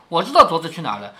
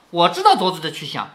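First: Quick, casual and unbothered; flat, offhand. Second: Said in the usual way. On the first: Shown as a demonstration. Wang Xifeng calmly tells the group, matter-of-fact. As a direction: toss it off as if it is nothing. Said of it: "王熙凤很平淡地说". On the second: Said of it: "凤姐儿笑着说".

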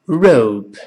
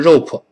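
First: Rope drawn out with a gliding OH; correct rope. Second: Rope with a puffed extra vowel after P; wrong rope. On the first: Teacher models rope for learners, clear pronunciation. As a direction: say rope as one syllable, tongue curled back on R. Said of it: "读成". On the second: Teacher shows learners what to avoid, mispronounced rope. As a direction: mispronounce rope as a heavy 'row-puh'. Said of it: "而不是rope". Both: Shown as a demonstration.

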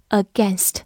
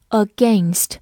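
First: "against" with AI said as short E, as in "pen"; "against" with short vowel. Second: "against" with AI said as the long A of "gain"; "against" with a diphthong. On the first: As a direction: say "against" with a short "genst" ending. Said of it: "也可以发成短音A". ("against" 中 ai 读短音 /e/) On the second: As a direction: say "against" to rhyme with "rained". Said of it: "除了可以发双元音A之外". ("against" 中 ai 读双元音 /eɪ/) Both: Shown as a demonstration.

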